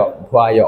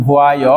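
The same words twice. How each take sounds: First: "ভুয়ায়" with ভু and আ run together; lower, blended "ভুয়ায়"; merged vowels. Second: "ভুয়ায়" with ভু and আয় kept apart; uncombined syllables. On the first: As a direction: say "ভুয়ায়" as one joined word, ভোয়া-য়. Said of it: "এইভাবে হয়ে যাবে ভুয়া". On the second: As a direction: say "ভুয়ায়" unmerged, as ভু-আ-য়. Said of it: "হওয়ার কথা ছিল এরকম". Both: Shown as a demonstration.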